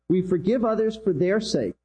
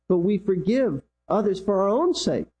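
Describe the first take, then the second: First: Contrastive stress on "their" before "sake". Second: "own" lifted in pitch, then falling on "sake"; stress on OWN. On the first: Preacher giving the congregation the first reason, stressing "their". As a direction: make "their" stand out against the other reason. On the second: Preacher giving the congregation the second reason, stressing "own". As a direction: make "own" the contrasting peak. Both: Real, not acted.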